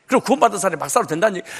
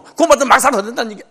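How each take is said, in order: First: Quick, offhand mock of believers' excuse; quoting a common excuse. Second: Higher, louder, fast mock of the excuse. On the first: Preacher mimics congregants' common excuse, quick offhand voice. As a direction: rattle it off as people always say it. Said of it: "꼭 이렇게 얘기를 해". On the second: Preacher repeats the universal excuse, louder mocking voice. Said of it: "이거 세계 공통어".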